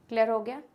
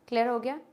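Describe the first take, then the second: The two takes are said the same way.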